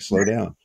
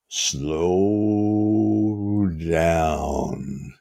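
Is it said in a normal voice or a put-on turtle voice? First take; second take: normal voice; turtle voice. First: It is said in a normal voice. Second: It is said in a put-on turtle voice.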